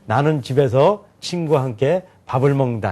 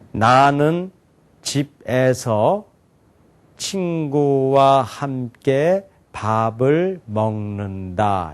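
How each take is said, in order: First: It is read in grouped phrases with breaks. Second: It is read slowly, word by word. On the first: It is easiest to understand. The speaker calls it right. "이렇게 끊어 읽으면 더 잘 이해가 된다는 거예요" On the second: It is thought to be easier to understand. The speaker calls it wrong. "천천히 제가 또박또박 얘기했잖아요"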